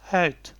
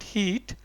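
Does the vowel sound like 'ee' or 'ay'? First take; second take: ay; ee. First: The vowel sounds like 'ay'. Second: The vowel sounds like 'ee'. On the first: The speaker calls it right. "because E is pronounced as A. So it's heet" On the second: The speaker calls it wrong. "It's not heat"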